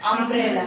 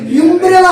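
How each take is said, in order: First: The word begins with an 'uh' sound. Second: The word begins with a 'yoo' sound. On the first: The speaker calls it right. "আয়ের মতন উচ্চারণ হয়েছে।" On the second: The speaker calls it wrong. "ইউটা কি ইউর মতন ইউমব্রেলা হয়েছে?"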